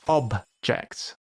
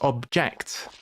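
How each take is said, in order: First: The stress is on the first syllable. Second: The stress is on the second syllable. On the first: It is used as a noun. "the emphasis goes on the first word, on the first syllable" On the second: It is used as a verb. "that's a verb. So it's object"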